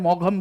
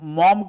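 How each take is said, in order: First: It is two syllables, like 'maw-gham'. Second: It is one syllable, like 'mom'. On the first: The speaker calls it wrong. "मैंने मौघम बोल दिया" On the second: The speaker calls it right. "मॉम के जगह"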